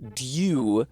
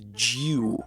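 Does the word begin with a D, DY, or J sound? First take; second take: DY; J. First: The word begins with D and a Y glide. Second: The word begins with a J sound. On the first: "in England it was yeah, dew, but dew is also kind of annoying to say"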